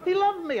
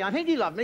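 First: High, loud push on the word loved; stressed loved. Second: He loved me with the weight on he, voice settling back down; doubtful stress on he. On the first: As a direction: sell loved, then let it fall. Fond claim about father. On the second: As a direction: hedge it by leaning on he. Doubting correction of same claim. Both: Acted.

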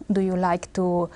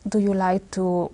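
Both takes have the same delivery.

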